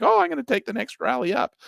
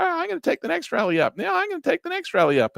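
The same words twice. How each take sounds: First: Mock eager trader. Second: Repeated higher still, a hammed-up chant of hope; mock insistent trader. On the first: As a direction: play the hopeful trader, voice jumped up. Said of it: "You're like". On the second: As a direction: mimic a trader talking himself into it, very high. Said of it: "And then you tell".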